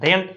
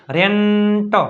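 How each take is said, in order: First: Said in the usual way. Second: રેન્ટ held long through ન before a separate ટ; blending sounds. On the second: Shown as a demonstration. Teacher building up from આર ઈ, રેન્ટ drawn out. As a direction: draw out the middle of રેન્ટ. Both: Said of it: "આર ઈ એટલે રે".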